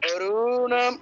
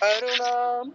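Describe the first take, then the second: First: The vowel in ru is long, na short. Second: The vowel in na is long, ru short. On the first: The speaker calls it wrong. "রু রক্ত হবে তুমি দীর্ঘ উচ্চারণ করেছো, না দীর্ঘ হবে তুমি রস্য করেছো। অরুণাম না, এরকম নয়" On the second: The speaker calls it right. "দীর্ঘটা নাতে হবে, রুতে নয়।"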